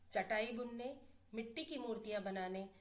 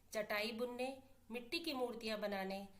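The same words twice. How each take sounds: Both takes have the same delivery.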